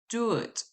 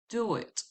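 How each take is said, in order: No difference in how they are said.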